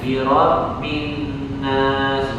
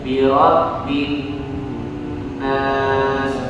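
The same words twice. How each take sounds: First: The nasal sound is cut short and rushed. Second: The nasal sound is held for three counts. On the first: The speaker calls it wrong. "itu kecepatan" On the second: The speaker calls it right. "kalau dihitung begini, itu jadi tiga, hitungan keempat baru pindah"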